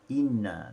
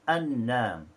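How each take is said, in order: First: The word begins with an i vowel. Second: The word begins with an a vowel. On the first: This is another traditional reading of the verse. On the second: This is one traditional reading of the verse.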